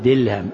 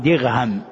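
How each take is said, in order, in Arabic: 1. الحرف الأوسط هو صوت l. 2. الحرف الأوسط هو صوت gh. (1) "يقول دلهم" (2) "بعضهم يأتي بالغين فيقول دغهم"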